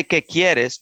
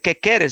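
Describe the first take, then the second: First: Said in the usual way. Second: "quieres" said as "keres", without the i glide; slang Spanish. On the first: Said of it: "Not even say". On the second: Shown as a demonstration. Quoting the stranger's really slang Spanish, "quieres" slurred to "keres". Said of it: "That's really slang".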